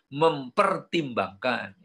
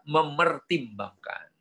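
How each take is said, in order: First: The word has an 'mp' sound before 'er'. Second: The word has no 'p' sound before 'er'. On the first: This is the older form. The speaker calls it wrong. "kalau zaman dulu mempertimbangkan ... keliru" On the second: This is the form language experts accept. The speaker calls it right. "Yang betul adalah memertimbangkan"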